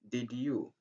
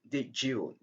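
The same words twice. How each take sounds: First: The d and y are said as separate sounds. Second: The d and y merge into a j sound. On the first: "instead of saying did you" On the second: "Just say did you"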